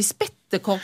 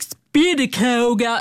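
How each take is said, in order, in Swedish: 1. Ordet uttalas med standardsvenskt uttal. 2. Ordet uttalas i en sydlig regional dialekt.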